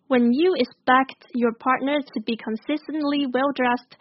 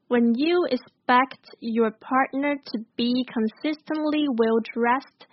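First: It is read at a faster, normal pace. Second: It is read at a slower pace.

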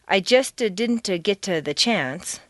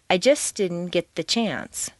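First: The words are broken apart with hesitations between them. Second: The words flow together smoothly without breaks.

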